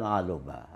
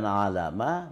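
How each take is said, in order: First: The middle vowel is u. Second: The middle vowel is a. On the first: "bukan aluma" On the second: "Bukan alama"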